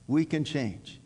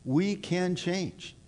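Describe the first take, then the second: First: Said in the usual way. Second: We can change, drawn out slowly; slow it right down and land it; deliberate reassurance; slow emphatic. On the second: Acted. Repeated for emphasis, slowed.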